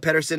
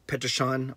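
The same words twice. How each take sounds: First: It is said with an English pronunciation. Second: It is said with a Swedish pronunciation.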